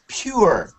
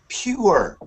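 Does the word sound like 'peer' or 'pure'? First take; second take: pure; pure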